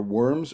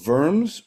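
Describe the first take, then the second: First: "Worms" said as in English, with a W, like the word for earthworms; plain English "Worms" with a W. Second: "Worms" said the German way, as "Verms", higher and louder. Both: Shown as a demonstration. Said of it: "or Worms".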